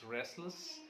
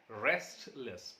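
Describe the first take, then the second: First: The middle t sound is left out. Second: The middle t sound is pronounced.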